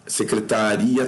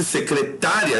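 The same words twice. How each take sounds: First: "Secretaria" with the stress on the i, se-cre-ta-RI-a. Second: "secretária" slow and higher, stressed se-cre-TÁ-ria. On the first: Teacher contrasts two words, "Secretaria" stressed on RI. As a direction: stress the next-to-last vowel of "Secretaria". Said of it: "mas como é secretaria". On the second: Teacher shows the alternative word, "secretária" with drawn-out stress on TÁ. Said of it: "estaria certo". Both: Shown as a demonstration.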